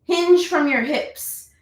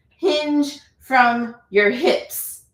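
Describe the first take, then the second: First: "hinge" lifted high and slowed; mentor's cue. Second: "Hinge" drawn out very slowly, rising; slow emphatic cue. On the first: Retold or imitated. Quoting her mentor to students, stressing "hinge". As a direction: hit "hinge" like a coaching cue. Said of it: "as one of my mentors used to tell me". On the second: Shown as a demonstration. Teacher repeating the cue to students, very slow. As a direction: stretch every word for the class.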